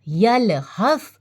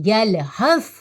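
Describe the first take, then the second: The two takes are said the same way.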